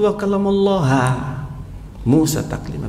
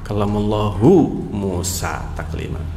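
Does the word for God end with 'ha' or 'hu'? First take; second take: ha; hu. First: The word for God ends with 'ha'. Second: The word for God ends with 'hu'. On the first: Moses is the one speaking to God. The speaker calls it wrong. "Maknanya berbalik" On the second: God is the one speaking to Moses. The speaker calls it right. "pakai hu atau pakai ha? Hu"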